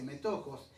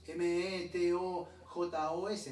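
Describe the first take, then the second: First: Said in the usual way. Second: M E T O J O S said slowly, one letter at a time; spelled letter by letter. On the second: Shown as a demonstration. Preacher spelling the Greek word for his listeners, slowly. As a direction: spell it out slowly so the congregation can write it. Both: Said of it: "Esa palabra partícipe es metojos".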